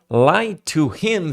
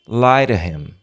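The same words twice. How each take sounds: First: The three words are said separately. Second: The three words run together as one.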